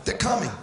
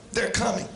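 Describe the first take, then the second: No difference in how they are said.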